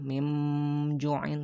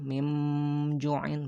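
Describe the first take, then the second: First: The n is changed into an m sound. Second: The n is changed into an m sound.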